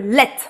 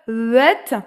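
First: The L sound at the start is very quick. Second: The L sound at the start is drawn out. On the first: The speaker calls it right. "et moi je veux let. ... L très rapide" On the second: The speaker calls it wrong. "J'entends encore un peu un le"

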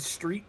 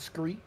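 First: The word begins with a plain 'str' sound. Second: The word begins with a 'skr' sound. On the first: "street becomes scree" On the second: "street becomes scree"

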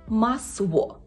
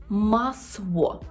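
Both takes have the same delivery.

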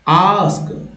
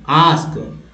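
No difference in how they are said.

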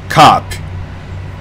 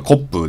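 First: The vowel is a long open 'ah'. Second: The vowel is a short rounded 'o'. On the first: The speaker calls it right. "実際の発音は、これ明るいあなんで、口を大げさに開けて" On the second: The speaker calls it wrong. "日本語だとコップですけど"

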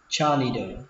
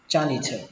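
First: The middle consonant sounds like a d. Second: The middle consonant sounds like an aspirated th. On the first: "Cách đọc thứ hai các bạn có thể đọc âm này thành âm đờ" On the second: "Cách đọc thứ ba các bạn đọc thành âm thờ"

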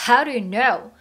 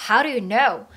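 The two takes are said the same way.

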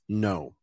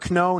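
First: The word starts with an n sound. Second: The word starts with a k sound. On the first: The speaker calls it right. "Always no" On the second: The speaker calls it wrong. "Never kno"

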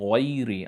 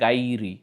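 First: The first sound is heavy and dark. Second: The first sound is light and thin. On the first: The speaker calls it right. "গয়রি, আমার জিভটা উঁচুতে উঠে যাচ্ছে।" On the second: The speaker calls it wrong. "যদি জিভটা ফ্ল্যাট থাকে তাহলে হয়ে যাবে গাইরি, তাহলে ভুল হবে।"

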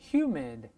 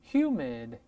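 The two takes are said the same way.

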